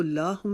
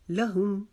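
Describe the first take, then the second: First: Wrong-way demo, लाहुम with a stretched "laa"; mispronounced long vowel. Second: लहुम with a quick, short "la"; careful model reading of लहुम, short "la"; short first vowel. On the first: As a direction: draw out the first vowel in लाहुम. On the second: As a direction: keep the "la" of लहुम short, then hum the m. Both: Shown as a demonstration. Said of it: "इसको लाहुम नहीं पढ़ेंगे".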